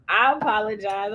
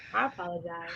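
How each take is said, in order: First: Said in the usual way. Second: Much quieter, lower apology; hushed, low-voiced sorry; softly spoken apology. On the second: Real, not acted. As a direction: say it small and soft, as requested. Repeats apology softly, as asked.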